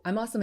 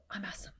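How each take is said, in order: First: Said in the usual way. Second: Very soft whisper; whispered celebration. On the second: Retold or imitated. Coach and husband after working out, whispered celebration. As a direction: whisper it like a shared little victory.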